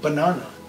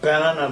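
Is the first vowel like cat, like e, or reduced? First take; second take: reduced; like cat. First: The first vowel is barely pronounced. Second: The first vowel sounds like the vowel in cat. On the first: The speaker calls it right. "As if এই এটা ওখানে নেই" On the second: The speaker calls it wrong. "আমি এটাকে ব্যানানা বলছি না"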